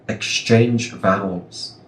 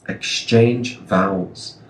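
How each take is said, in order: No difference in how they are said.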